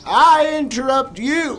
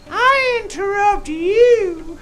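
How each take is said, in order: First: It is said in his ordinary speaking voice. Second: It is said in a put-on puppet voice. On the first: The speaker calls it wrong. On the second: The speaker calls it right.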